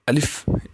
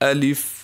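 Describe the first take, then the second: First: The word is said hurriedly, without calm. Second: The word is said calmly and steadily. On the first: The speaker calls it wrong. "इस तरह पढ़ना भी नाजायज़ है और ये सही तरीका नहीं है" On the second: The speaker calls it right. "सुकून के साथ"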